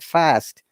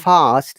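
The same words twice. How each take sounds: First: It is said with an American vowel. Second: It is said with a British vowel. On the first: "they say" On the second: "Like we say"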